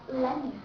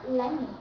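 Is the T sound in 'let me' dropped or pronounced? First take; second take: dropped; dropped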